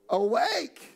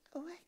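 First: The word is shouted loudly with force. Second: The word is said quietly without force. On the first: It is a passionate, eager cry. "she shouts this out" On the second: It is a plain, unexcited remark. "she doesn't just say"

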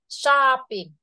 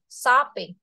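First: The first vowel is a long o sound. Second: The first vowel is a short o sound. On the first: The speaker calls it wrong. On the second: The speaker calls it right.

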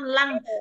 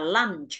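First: The word ends without a final 'ch' sound. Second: The word ends with a clear 'ch' sound. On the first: It sounds like the word for lung. The speaker calls it wrong. "nếu các bạn mà đọc là từ lăn lăn lăn, lăn là cái kiểu như là cái lá phổi" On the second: It means the midday meal. The speaker calls it right. "mình sẽ đọc đúng là mình đọc là lunch"

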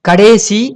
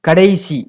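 First: The second syllable has an e vowel. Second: The second syllable has an ai vowel. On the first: This is the colloquial spoken form. The speaker calls it wrong. "கடேசி கடாசி அப்படின்னு சொல்லக்கூடாது" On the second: This is the standard written form. The speaker calls it right. "கடைசி அப்படிங்கிறதா correct"

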